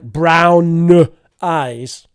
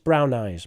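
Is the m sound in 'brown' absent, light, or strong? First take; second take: strong; light. First: The m sound is held long and strongly. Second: The m sound is present but light and brief. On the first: The speaker calls it wrong. "It's not like brown eyes. Not necessary" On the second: The speaker calls it right. "It doesn't need to be very strong"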